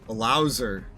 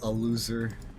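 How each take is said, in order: First: The vowel sounds like 'ow' in 'louse'. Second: The vowel sounds like 'oo' in 'lose'.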